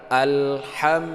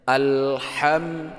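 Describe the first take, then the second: No difference in how they are said.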